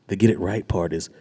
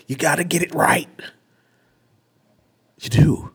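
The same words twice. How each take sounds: First: Said in the usual way. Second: Much higher and louder, a parody of a scolding preacher; hammed-up legalistic sermon tone; mocking preachy voice. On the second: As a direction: send up the works-based preacher.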